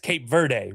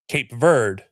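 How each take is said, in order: First: The name is said the way broadcasters say it. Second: The name is said with an American English pronunciation. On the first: The speaker calls it wrong. "every time I hear it on broadcast, it's" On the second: The speaker calls it right. "the American English version, is"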